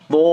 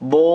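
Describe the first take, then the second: First: It is said heavy, with a full mouth. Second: The same.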